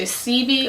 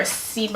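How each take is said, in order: First: Sebi said as SEE-bee; "Sebi" as two syllables, SEE-bee; first pronunciation attempt. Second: Sebi said as see-BYE; "Sebi" as two syllables, see-BYE; alternative pronunciation attempt. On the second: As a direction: say Sebi with a final eye sound. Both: Shown as a demonstration. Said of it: "I don't know if I'm s-, pronouncing his name right".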